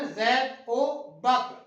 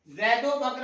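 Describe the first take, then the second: First: Zaid او Bakr slowly, each word apart, او as a clear "o"; teacher stretching the phrase for students; slow careful demo. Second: Zaid او Bakr rattled off fast, او slurred into the words; casual fast reading; quick run-through. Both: Shown as a demonstration. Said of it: "ہم اس کو پڑھتے ہیں نا".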